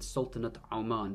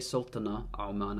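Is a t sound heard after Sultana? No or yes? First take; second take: yes; no. First: The first word ends in a clear t sound. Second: The first word ends in a vowel, without t. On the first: The speaker calls it right. "I said Sultanate Oman" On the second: The speaker calls it wrong. "I didn't say Sultana Oman"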